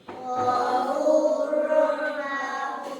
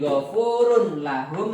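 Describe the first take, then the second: First: The n sound merges into the following l. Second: The n sound is clearly pronounced before lahu.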